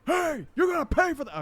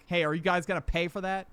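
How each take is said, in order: First: High, loud mock yell; exaggerated retold shout. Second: Retold firm question, not shouted; pretty stern. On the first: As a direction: call out after a thief, hammed up. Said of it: "I was not that loud". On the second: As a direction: challenge them sternly without yelling. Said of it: "pretty sternly".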